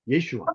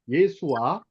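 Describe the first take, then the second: First: The middle consonant is a 'sh' sound. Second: The middle consonant is an 's' sound. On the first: It means savior. "구원의 이름을 히브리어로는요. 예슈아라고 해요" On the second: It means a man with nails driven into his hands. "예수아라고 발음하면요"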